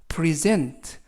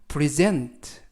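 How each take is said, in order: No difference in how they are said.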